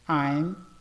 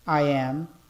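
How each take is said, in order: First: It is said as one short contracted word. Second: It is said as two separate full words. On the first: "a forma contraída" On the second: "vamos falar de forma cheia"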